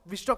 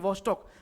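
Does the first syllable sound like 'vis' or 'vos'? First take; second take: vis; vos. First: The first syllable has an 'i' vowel. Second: The first syllable has an 'o' vowel. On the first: The speaker calls it wrong. "विस्टॉक नहीं" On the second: The speaker calls it right.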